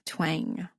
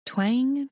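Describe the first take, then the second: First: Fading twang. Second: Twang sound. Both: A narrator's reading. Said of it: "play me like a guitar".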